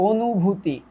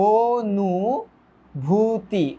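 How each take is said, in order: First: Said in the usual way. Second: অনুভূতি very slow, "o-nuu-bhuu-tii"; syllable by syllable. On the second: Shown as a demonstration. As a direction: stretch each syllable of অনুভূতি separately. Splitting a word into syllables. (ভেঙে ভেঙে, টেনে টেনে)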